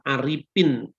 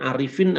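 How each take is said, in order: First: The middle consonant is a 'p' sound. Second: The middle consonant is an 'f' sound.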